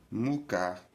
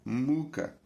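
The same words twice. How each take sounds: First: Mucar stressed on the final syllable; mu-CAR, last syllable stressed; second-syllable stress. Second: Muca stressed on MU; MU-ca, first syllable stressed. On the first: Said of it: "quando o acento incide na segunda sílaba". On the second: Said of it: "quando o acento incide na primeira sílaba". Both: Shown as a demonstration.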